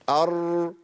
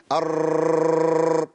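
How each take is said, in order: First: أر slow and gentle, one firm tap and no trill; steady single r. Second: أر hit hard and held, the r rattling many times; forceful trilled r. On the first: Teacher showing the correct r, slow and steady. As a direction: settle into أر calmly, tongue held still. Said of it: "هيثبت اللسان وهمكن للراء". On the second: Teacher showing the wrong, forceful r, rattling and held. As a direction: slam into أر and let the tongue bounce. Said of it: "أقول إيه؟". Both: Shown as a demonstration.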